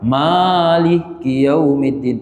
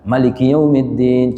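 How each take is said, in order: First: The first vowel is drawn out long. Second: The first vowel is short and quick. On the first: This follows the other, more common reading tradition. "kita tambah alif di situ" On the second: This follows one reading tradition.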